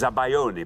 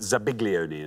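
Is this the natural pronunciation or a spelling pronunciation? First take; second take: natural; spelling. First: It is said the usual spoken way. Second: It is said letter by letter as spelled. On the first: This is how the word is actually pronounced. "It's pronounced as zabaglione" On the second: This is how the word is written. "zabaglione is how it's written"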